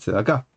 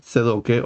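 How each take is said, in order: First: The vowels follow an Israeli Sephardic pronunciation. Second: The vowels follow a Yiddish-style pronunciation. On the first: "en lugar de" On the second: "según el estilo yiddish"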